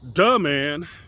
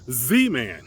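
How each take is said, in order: First: The word 'the' begins with a D sound. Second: The word 'the' begins with a Z sound. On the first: "they will say duh man" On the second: "in French the th sound is not there either. So uh, they say Z man"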